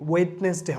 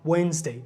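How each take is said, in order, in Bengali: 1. মাঝখানে d সাউন্ডটি উচ্চারণ করা হয়। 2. মাঝখানে d সাউন্ডটি নীরব থাকে। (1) "ওয়েডনেসডে হবে না" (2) "এখানে ডিটা আমার সাইলেন্ট থাকতেছে"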